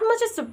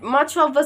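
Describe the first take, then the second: First: The words blend together without a full 'of'. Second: Each word is said separately with a full 'of'. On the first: "you're using matcha" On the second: "Instead of saying much of"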